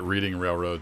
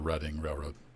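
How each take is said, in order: First: Reading is said the way it looks. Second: Reading is said in the regional way. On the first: The speaker calls it wrong. "I've been calling it Reading Railroad since playing Monopoly as a kid" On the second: The speaker calls it right. "the regional pronunciation is the Reading Railroad"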